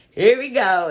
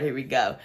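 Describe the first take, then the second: First: Here we go, louder and higher, fed up; louder exasperated repeat. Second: Said in the usual way. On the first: Retold or imitated. Watching the ex-couple sit down, she exclaims "Here we go" louder and higher. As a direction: punch the second "Here we go" up and out. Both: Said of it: "And I was just like".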